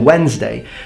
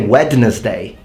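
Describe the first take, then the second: First: The D sound is left out. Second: The D sound is clearly pronounced. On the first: "the D completely not pronounced" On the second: "Why don't you say Wednesday?"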